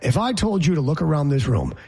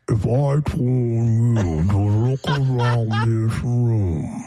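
First: It is said at normal speed. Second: It is said at quarter speed.

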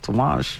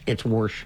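First: It is said without an R, New England style. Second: It is said with an R, Ohio style.

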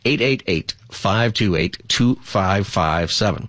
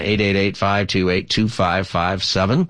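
First: The number is said slowly. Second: The number is said fast.

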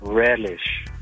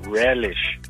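First: It is said in a loving tone. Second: The same.

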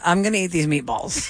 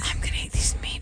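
First: It is spoken in a normal voice. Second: It is whispered.

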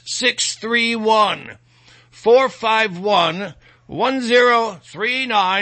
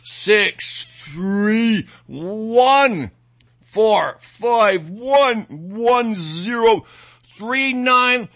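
First: The number is said at normal speed. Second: The number is said slowly.

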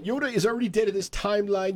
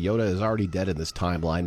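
First: It is read in a put-on nerdy voice. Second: It is read in a normal voice.

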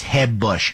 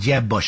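First: The name starts with a soft, Spanish-style J. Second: The name starts with an English J sound.

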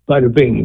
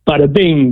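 First: It is said plainly, without much energy. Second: It is said with energy, like it's meant.

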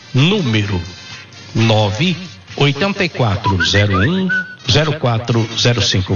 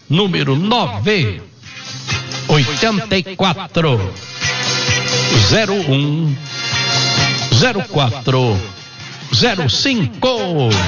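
First: The number is said at normal speed. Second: The number is said slowly.

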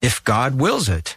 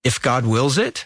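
First: It falls at the end like a statement. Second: It rises at the end like a question.

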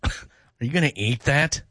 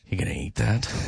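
First: It is said in a sarcastic tone. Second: It is said flirtatiously, with heavy breathing.

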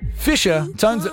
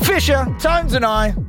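First: It is said in a calm, normal voice. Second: It is said in a hyped, high-energy voice.

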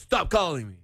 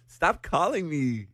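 First: It sounds serious, really meaning stop. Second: It sounds playful, not really meaning stop.

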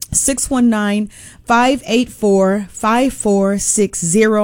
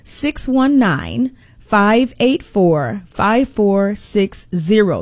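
First: The number is said at a normal, quicker pace. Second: The number is said a little more slowly.

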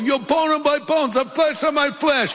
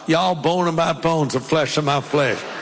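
First: It is said in an East Coast accent. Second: It is said in a Southern US accent.

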